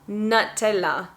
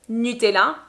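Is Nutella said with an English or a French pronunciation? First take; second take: English; French. First: It is said with an English pronunciation. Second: It is said with a French pronunciation. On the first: "So in English, we are going to say Nutella" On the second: "in French we say Nutella"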